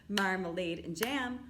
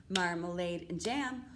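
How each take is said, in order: No difference in how they are said.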